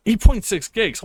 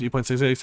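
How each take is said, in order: First: Shocked. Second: Said in the usual way. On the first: Real, not acted. Shocked by download size.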